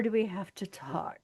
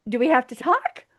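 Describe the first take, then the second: First: Hushed, loaded emphasis on "talk"; hint at a second meaning, half-whispered; mock suggestive. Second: Said in the usual way. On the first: Second take hints at sex.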